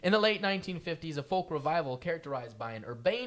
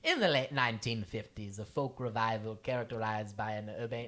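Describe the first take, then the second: First: It is read in a plain American accent. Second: It is read in a put-on British accent.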